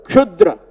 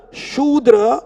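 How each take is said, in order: First: "Kshudra" opening on a K-SH cluster; Kshudra with initial K. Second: "Shudra" starting on a clean SH sound; Shudra with plain SH. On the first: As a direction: sound a K right before the SH in "Kshudra". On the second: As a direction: say "Shudra" with no K before the SH. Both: Shown as a demonstration. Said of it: "Whereas here, the word".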